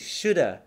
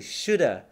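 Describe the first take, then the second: First: The word 'have' is reduced to a short vowel. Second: The word 'have' is reduced to a short vowel.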